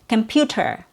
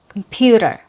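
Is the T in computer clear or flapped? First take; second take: clear; flapped. First: The T is a clear, full T sound. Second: The T is a quick flapped sound. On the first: It sounds proper and a little formal. "a true T sound" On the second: It is everyday informal speech. "changed to a fast T sound"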